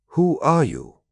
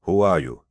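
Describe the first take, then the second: First: Much higher, insistent demand; raised, pointed challenge; insistent repeated question. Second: Understated wary question; a touch of wariness in a narrated challenge. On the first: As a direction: press for an answer, pitch leaping up. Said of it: "Hawkmoon asked again". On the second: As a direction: ask guardedly, at an ordinary pitch. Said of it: "Hawkmoon looked at him warily". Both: A narrator's reading.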